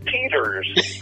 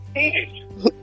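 First: It is said in a Californian accent. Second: It is said in a Boston accent.

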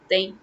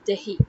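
First: The middle h sound is dropped. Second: The middle h sound is pronounced. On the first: This is how it sounds in fast everyday speech. The speaker calls it wrong. "we tend to drop the h in between. So it sounds more like dahi" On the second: This is the proper form of the word. The speaker calls it right. "But it's not dahi, it's dahi"

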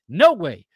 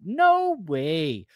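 First: It is said in the speaker's plain accent. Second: It is said in a put-on Canadian accent.

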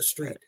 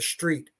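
First: The word begins with a plain 's' sound. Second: The word begins with an 'sh' sound. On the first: "Not the street" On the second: "putting an S H T, like you're walking down the street"

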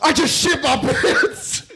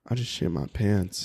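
First: It is said in an aggressive, panicked tone. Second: It is said in a seductive, sultry tone.

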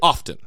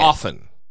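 First: The T sound is pronounced. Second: The T sound is silent.

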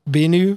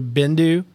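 First: The name is said without a d sound. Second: The name is said with a d sound. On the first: The speaker calls it right. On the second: The speaker calls it wrong.

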